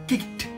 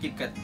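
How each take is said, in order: First: The ending is a short sound, no extra syllable. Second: The ending is said as an extra syllable. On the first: The speaker calls it right. "tapi cukup kicked" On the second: The speaker calls it wrong. "bukan dibaca kicket"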